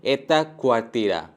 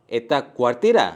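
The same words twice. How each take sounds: First: Said in the usual way. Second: क्वार्टीरा rising at the end; एता क्वार्टीरा as a rising question; question intonation. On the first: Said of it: "दूसरे sentences पे". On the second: Shown as a demonstration. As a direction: ask by lifting क्वार्टीरा. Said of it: "सिर्फ एक intonation add होगा".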